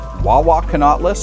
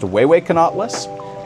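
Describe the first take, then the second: First: The name begins with a 'wa' sound. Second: The name begins with a 'way' sound. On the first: The speaker calls it wrong. "I actually learned how to pronounce it wrong" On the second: The speaker calls it right. "it's supposed to be pronounced"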